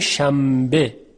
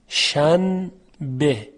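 First: An m sound is said before the b. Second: An n sound is said before the b.

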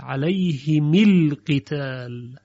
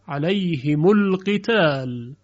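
First: The m is followed by an i vowel. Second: The m is followed by a u vowel.

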